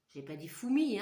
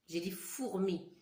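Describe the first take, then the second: First: "fourmi" said without the r, like "foumi"; teacher showing the wrong way to say "fourmi"; wrong pronunciation. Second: "fourmi" with a clear r, "four-mi"; teacher giving the correct "fourmi"; correct pronunciation. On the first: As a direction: drop the r in "fourmi" on purpose. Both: Shown as a demonstration.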